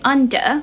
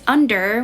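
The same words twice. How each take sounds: First: The final R sound is left silent. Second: The final R sound is clearly pronounced. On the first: "we say under" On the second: "instead of under"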